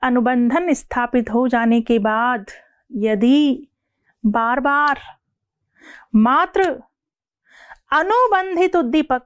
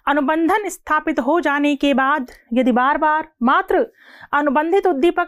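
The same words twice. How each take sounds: First: The sentence is spoken slowly and deliberately. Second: The sentence is spoken quickly, at full speed. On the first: "अब मैं यही line धीरे बोलूंगी" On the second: "मैंने line speed से बोली"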